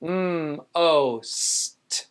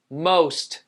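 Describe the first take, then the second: First: "Mm, o, st" drawn apart; hummed m, long o, separate s and t; sounded out. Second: Said in the usual way. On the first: Shown as a demonstration. Teacher breaks down second syllable, sounded out. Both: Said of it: "So the first syllable".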